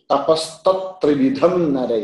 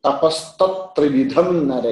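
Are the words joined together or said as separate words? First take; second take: joined; joined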